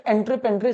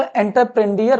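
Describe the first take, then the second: First: एंट्रेप्रेन्योर said as en-tre-pen-dre; correct French-word pronunciation. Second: एंटरप्रेन्योर misread as en-ter-pren-di-yer; common misreading. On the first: Teacher correcting a common misreading, word said as en-tre-pen-dre. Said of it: "सही pronunciation होता है". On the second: Teacher showing how many people read the French word, common misreading en-ter-pren-di-yer. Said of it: "कई लोग इसको एंटरप्रेन्योर पढ़ते हैं". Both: Shown as a demonstration.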